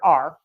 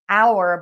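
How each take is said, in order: First: The word sounds like the letter R. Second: The word sounds like 'hour', with two vowel sounds. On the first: "but I hear R" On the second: "you say this word is pronounced our"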